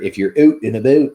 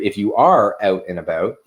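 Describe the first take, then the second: First: It uses a stereotyped Canadian accent. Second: It uses the speaker's plain everyday accent.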